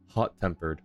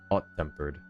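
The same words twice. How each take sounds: First: The h at the start is clearly pronounced. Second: The h at the start is left silent. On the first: "sometimes he'll pronounce the H's in the beginning" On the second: "and sometimes he won't"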